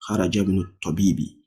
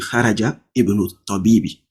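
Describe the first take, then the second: First: The 'i' is skipped so haraja joins directly to bnu. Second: The 'i' of ibnu is pronounced as a separate syllable. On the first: The speaker calls it right. "You will jump it" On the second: The speaker calls it wrong. "that is not how it should be"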